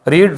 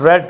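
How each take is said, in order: First: The vowel is a long 'ee' sound. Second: The vowel is a short 'e' sound. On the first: It is the base form of the verb. "पहली और third जो है ना pronunciation में same है" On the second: It is the simple past form. "सेकंड form को हम रेड पढ़ते हैं"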